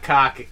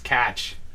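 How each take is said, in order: First: The name is said with the vowel of 'cock'. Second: The name is said with the vowel of 'catch'. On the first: The speaker calls it wrong. "It's not cock" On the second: The speaker calls it right. "it's catch"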